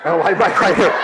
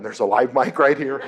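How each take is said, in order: First: Second live mic said higher and louder; louder, higher repeat. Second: Said in the usual way. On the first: Shown as a demonstration. Mother pointing out the second mic, louder and higher.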